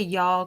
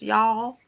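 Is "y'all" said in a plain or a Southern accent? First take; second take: plain; Southern. First: It is said in a plain, neutral accent. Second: It is said with a drawn-out Southern accent. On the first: "I say y'all quite often" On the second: "I get the Tennessee thing"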